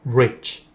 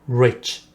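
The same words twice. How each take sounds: First: The final ch is a light bare consonant. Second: The final ch is a light bare consonant.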